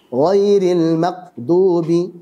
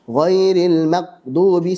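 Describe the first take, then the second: The two takes are said the same way.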